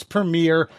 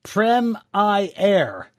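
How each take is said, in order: First: Said in the usual way. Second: "Prem I Air" drawn out in three slow, higher beats; corrected "Premier" pronunciation. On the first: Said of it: "you should know how to pronounce". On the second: Shown as a demonstration. Host sounding out a viewer's correction, "Prem I Air" in separate syllables. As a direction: spell out "Prem I Air" with a long EYE in the middle. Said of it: "how to pronounce Premier, then it's".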